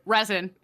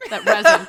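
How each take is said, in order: First: Said in the usual way. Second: That resin with Resin loud and rising; stress on Resin. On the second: Shown as a demonstration. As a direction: punch Resin, louder and lifting.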